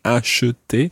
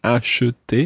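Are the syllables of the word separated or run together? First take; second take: Separated; Separated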